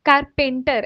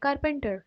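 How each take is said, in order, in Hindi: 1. बीच का स्वर लंबा खींचा जाता है। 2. बीच का स्वर छोटा रखा जाता है। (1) "ऐसे नहीं बोलेंगे" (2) "पे एकदम स्ट्रेच नहीं होगा"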